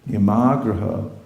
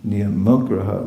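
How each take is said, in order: First: The middle vowel is held long. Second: The middle vowel is kept short. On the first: Following rules just for the sake of following them. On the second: Giving up the rules altogether.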